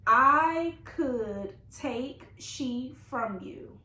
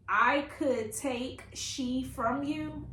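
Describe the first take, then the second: First: Very slow, louder, word-by-word quote; drawn-out repeat. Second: Quoted question. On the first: Reader repeats the mom's odd question, drawn out loudly. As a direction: stretch every word in disbelief at the wording. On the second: Reader shows viewers the mom's odd question, slow quote. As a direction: slowly read quote, little questioning lift. Reads puzzling book quote aloud. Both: Retold or imitated.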